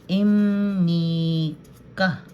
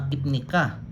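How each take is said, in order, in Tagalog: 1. Ang tunog na m ay nauuna sa n. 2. Ang tunog na p ay nauuna sa n. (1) "Instead of ip, im ang basa ko" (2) "Ganon din dito kasi pareho lang, ipnika"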